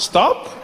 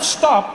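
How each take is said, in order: First: It is said as a gentle suggestion. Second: It is said as a firm command.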